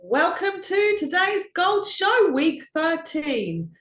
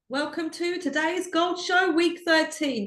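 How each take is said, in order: First: It is said loudly, almost shouting. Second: It is said more quietly, without shouting.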